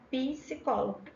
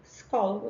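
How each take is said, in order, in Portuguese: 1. Uma vogal i extra vem depois do p. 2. O p vai direto para o s. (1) "a gente tem um i aí" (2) "Na verdade seria psicólogo"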